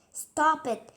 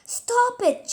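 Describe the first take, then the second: First: Shout. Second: High, loud, ringing Stop it!; angry girl shouting at a screaming boy to stop; furious shout. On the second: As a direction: yell it at the boy to make him stop. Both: A narrator's reading. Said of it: "she shouted at him".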